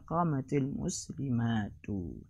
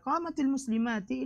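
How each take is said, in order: First: The last word ends with a 'u' vowel. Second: The last word ends with an 'i' vowel. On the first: The speaker calls it right. "yang benar adalah" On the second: The speaker calls it wrong. "ini kata yang salah"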